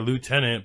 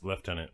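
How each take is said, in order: First: The first syllable sounds like 'loo'. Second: The first syllable sounds like 'left'. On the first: This is how the word is said today. "like what we consider lieutenant" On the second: This is how the word was said long ago. "back then it was uh, pronounced lieutenant"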